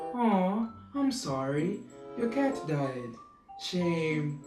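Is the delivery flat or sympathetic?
sympathetic. It is said in a soft, sympathetic tone. The bad news is softened. The speaker calls it right. "your voice can actually soften the blow"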